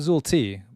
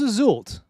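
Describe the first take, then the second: First: The T is said as a separate letter. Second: The T is joined onto the word's end. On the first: This is how the speaker thinks it should be said. "not Azul T, although it should be Azul T" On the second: This is the name's official pronunciation. "it is Azult"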